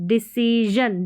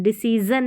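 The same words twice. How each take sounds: First: डिसीजन ending in voiced zhun. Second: डिसीज़न with plain z, ending zun; no zh, only z in डिसीज़न; wrong z in डिसीज़न. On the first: Teacher modelling the right reading, डिसीजन with zh. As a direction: buzz a zh in डिसीजन. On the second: Teacher showing the reading to avoid, डिसीज़न with z. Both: Shown as a demonstration. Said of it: "डिसीजन नहीं".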